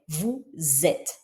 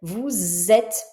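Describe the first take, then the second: First: Soft, lower "Vous êtes" linked as vou-zêtes; quiet liaison Z in vous êtes. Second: "Vous êtes" linked as vou-zêtes; liaison Z in vous êtes. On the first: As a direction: murmur "Vous êtes" with a clear Z link. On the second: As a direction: sound the S of "Vous" as a Z before "êtes". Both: Shown as a demonstration. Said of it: "je le prononce Z".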